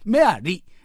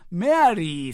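First: The final 'ri' vowel is cut short. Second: The final 'ri' vowel is held long. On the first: This is the name as it would be in Korean. "リをちょっと短くするね" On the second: This is the name as an English-style name. "メアリーさんって私今まで言ってたけど"

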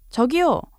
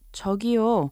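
First: It is called out loudly as if from afar. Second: It is said politely to request attention.

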